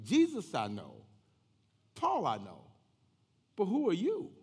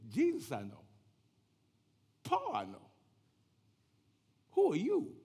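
First: Loud, challenging spirit's reply; evil spirit. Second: Put-on spirit voice jumping high; long pauses, climbing to a high, loud question; evil spirit. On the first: Acted. Evil spirit answering the exorcists, challenging. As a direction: punch each phrase, rising to a high question. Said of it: "the evil spirit answered to them". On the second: Evil spirit taunting the would-be exorcists, eerie challenge. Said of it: "The evil spirit said".

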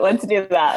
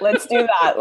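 First: Said in the usual way. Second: A real laugh running through the words; laughing agreement. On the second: Real, not acted. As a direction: say it while still laughing. Agrees, laughing at host's joke.

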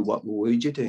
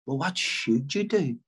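First: "would" picked out against the alternative; stress on would. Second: Slow, with "should" leaned on; stress on should. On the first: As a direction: lean on the word "would" in the question. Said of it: "as opposed to". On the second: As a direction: punch the word "should" in the question. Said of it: "as opposed to, "What would you do?". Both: Shown as a demonstration.

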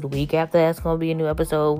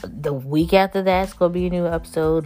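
First: Rattled off quickly; fast. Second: Said in the usual way. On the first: Shown as a demonstration. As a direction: rush through the repeat. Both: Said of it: "repeats it faster".

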